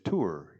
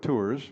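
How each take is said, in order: First: The final S is silent. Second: The final S is sounded. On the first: The speaker calls it right. "It's tour. You don't say that S" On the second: The speaker calls it wrong. "I said that wrong. That was English"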